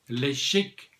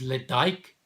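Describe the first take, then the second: First: The name ends with a 'chick' sound. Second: The name ends with a 'dyke' sound. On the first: This is how locals on the island say it. The speaker calls it right. "if you're on the Isle of Mull, then you pronounce it Le Chic" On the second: This is how an outsider would expect it. The speaker calls it wrong.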